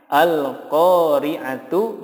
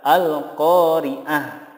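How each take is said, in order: First: The word ends in a t followed by u. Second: The word ends in a soft h sound. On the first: The reader continues without stopping. "Contohnya al-qari'atu" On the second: The reader stops on this word. "yang benar adalah al-qari'ah"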